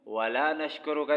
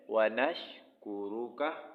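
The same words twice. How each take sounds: First: वला नशकुरुका said quickly; वला नशकुरुका, rushed wrong form; wrong extra la. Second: व नशकुरुका slow and clear; व नशकुरुका, drawn out; correct. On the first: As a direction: add ला wrongly. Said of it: "नहीं पढ़ना है". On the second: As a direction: recite व नशकुरुका carefully. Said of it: "क्या पढ़ना है?". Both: Shown as a demonstration.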